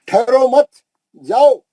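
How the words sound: The pause comes after the second word.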